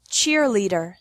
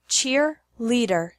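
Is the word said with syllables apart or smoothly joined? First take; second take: smoothly joined; apart. First: The syllables run together without a pause. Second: The syllables are separated by a pause. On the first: "once normally" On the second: "once with the syllables separated"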